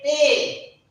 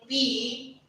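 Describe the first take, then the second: First: The letter ends with an 'ay' vowel. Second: The letter ends with an 'ee' vowel. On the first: The speaker calls it right. "we say pay" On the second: The speaker calls it wrong. "we are not saying P"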